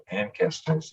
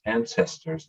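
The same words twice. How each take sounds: First: "ancestors" drawn out with a hard K, "ankestors"; wrong pronunciation. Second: Said in the usual way. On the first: Shown as a demonstration. Telling how the mistake came out, "ancestors" with a hard K. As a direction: say "ancestors" slowly as AN-kestors. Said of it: "not ancestors". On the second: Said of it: "I found out it's ancestors".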